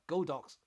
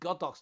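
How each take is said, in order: First: It is split into Go plus dox. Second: It is split into God plus ox. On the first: The speaker calls it wrong. "not Godox" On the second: The speaker calls it right. "it's called Godox"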